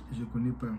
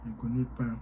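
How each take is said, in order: Both takes have the same delivery.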